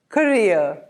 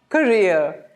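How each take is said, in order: No difference in how they are said.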